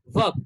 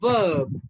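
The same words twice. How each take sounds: First: The vowel is short and clipped. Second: The vowel is stretched out long. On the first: The speaker calls it wrong. "No, it's wrong" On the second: The speaker calls it right. "we have to stretch it a bit longer"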